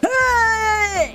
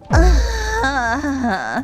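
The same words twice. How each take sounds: First: The voice is tight and constricted. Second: The voice is open and relaxed. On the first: The speaker calls it wrong. "instead of clenching and going like this" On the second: The speaker calls it right. "she should be opening up"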